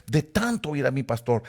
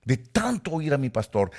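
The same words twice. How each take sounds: The two takes are said the same way.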